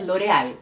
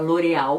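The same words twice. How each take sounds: First: The L is said as a clear L. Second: The L is said like a U sound. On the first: This is how it is said in Spanish-speaking countries. "em países que falam espanhol é L'Oréal" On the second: This is how it is said in Brazil. "como se o L tivesse o som de U"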